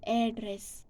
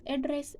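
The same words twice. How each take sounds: First: "address" in American pronunciation. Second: "address" in British pronunciation. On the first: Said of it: "American pronounce as". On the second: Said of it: "British pronounce as". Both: Shown as a demonstration.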